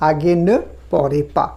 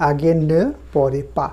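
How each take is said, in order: Both takes have the same delivery.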